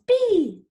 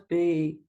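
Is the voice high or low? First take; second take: high; low. First: It is said in a high-pitched voice. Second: It is said in a low-pitched voice. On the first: "Shall we say it in a high voice?" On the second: "Let's say it in a low voice"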